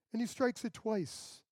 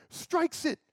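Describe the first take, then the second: First: Said in the usual way. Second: "strikes it" hit much higher and louder; emphatic stress. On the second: Real, not acted. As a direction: punch "strikes" hard and high. Moses' anger retold, emphasized.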